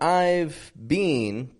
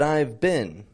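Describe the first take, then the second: First: The vowels are fully pronounced. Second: The vowels are reduced and quick. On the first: The speaker calls it wrong. "So not I've been" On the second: The speaker calls it right. "We reduce some of these vowels"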